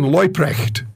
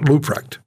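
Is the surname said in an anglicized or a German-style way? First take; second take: German-style; anglicized. First: The surname is said with German-style vowels. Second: The surname is said with anglicized English vowels. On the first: The speaker calls it right. "I got to say it right this time" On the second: The speaker calls it wrong. "not Luprecht ... but I anglicized it"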